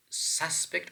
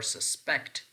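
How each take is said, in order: First: "suspect" slowly, as SUS-pect; "suspect" in its noun form, SUS-pect; stress on first syllable. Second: "suspect" slowly, as sus-PECT; "suspect" in its verb form, sus-PECT; stress on second syllable. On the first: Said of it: "which one is correct?". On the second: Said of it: "stress pattern on the second syllable". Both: Shown as a demonstration.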